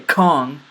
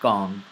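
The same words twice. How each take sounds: First: The k is released with a puff of air. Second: The k is released without a puff of air. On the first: The speaker calls it wrong. "I didn't say kong" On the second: The speaker calls it right. "I said kong"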